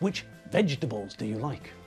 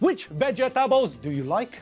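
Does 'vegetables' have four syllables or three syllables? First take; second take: three; four. First: Vegetables is said with three squashed syllables. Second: Vegetables is said with four separate syllables. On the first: The speaker calls it right. "We always ask" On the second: The speaker calls it wrong. "So we never ask"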